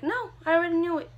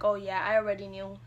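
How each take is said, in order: First: Quick, higher, louder brush-off; retold insistence. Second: Said in the usual way. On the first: Mom answering her pregnant daughter, briskly insistent. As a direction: insist you knew all along, briskly.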